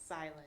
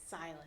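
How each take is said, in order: Both takes have the same delivery.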